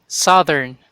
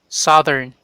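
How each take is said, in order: The two takes are said the same way.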